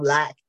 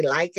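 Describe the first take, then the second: First: Said in the usual way. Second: "like" with the long "i" vowel, the Southern way of saying lack. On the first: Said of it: "instead of lack". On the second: Shown as a demonstration. Teacher demonstrating how her Southern accent turns lack into "like". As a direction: let the Southern vowel turn "like" into a rhyme with bike. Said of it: "my Southern accent comes out and I'll say like".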